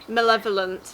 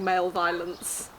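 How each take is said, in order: First: It is said as one four-syllable word. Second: It is said as two words, male violence. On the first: The speaker calls it right. "The word was malevolent" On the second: The speaker calls it wrong. "she kept saying male violence"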